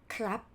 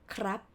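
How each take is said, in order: No difference in how they are said.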